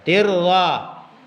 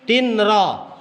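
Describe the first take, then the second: First: The n merges into a doubled r sound. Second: The n is pronounced clearly before the r. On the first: The speaker calls it right. "Tapi kalau dibaca dibaca tirra" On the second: The speaker calls it wrong. "tulisannya di situ 'ishatin, tinra"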